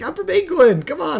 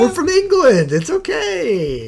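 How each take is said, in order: First: High goofy tourist voice; squeaky clueless Englishman; mock tourist voice. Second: High, drawn-out goofy voice; squeaky clueless tourist; mock tourist voice.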